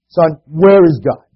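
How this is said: It is asked in a firmer tone.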